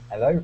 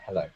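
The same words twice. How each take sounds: First: The word starts without an H sound. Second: The word starts with a clear H sound. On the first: "they don't say the H's, so it's like hello" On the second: "rather than hello"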